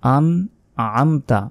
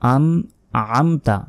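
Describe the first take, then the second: Both takes have the same delivery.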